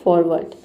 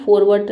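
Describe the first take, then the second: First: फॉरवर्ड said as "forward", one smooth word; teacher gives the right sound of फॉरवर्ड, "forward"; correct pronunciation. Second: फॉरवर्ड split like "four word", a learner's reading; फॉरवर्ड said as "for-word" to remember it; फॉरवर्ड as a spelling aid, "for-word"; wrong memory pronunciation. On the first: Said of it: "इसकी correct pronunciation होगी". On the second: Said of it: "लेकिन इसकी correct pronunciation होगी". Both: Shown as a demonstration.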